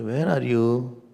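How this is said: It is said sweetly, with melody. The speaker calls it right. "Say, ... Put some swar in that"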